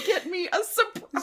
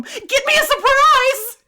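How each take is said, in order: First: High mock child's plea, breaking into laughter; desperate needy child. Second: Put-on high, drawn-out wailing child's shout; desperate needy child. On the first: Echoing the child's plea to mom, mock-desperate. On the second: Child calling after mom for a surprise, desperate. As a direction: plead loudly like a needy little kid, near laughter. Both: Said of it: "desperate voice that, like, only a needy child can have".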